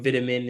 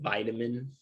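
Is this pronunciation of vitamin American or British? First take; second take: British; American. First: It is said with a British pronunciation. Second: It is said with an American pronunciation. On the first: "Like or vitamin" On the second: "instead of"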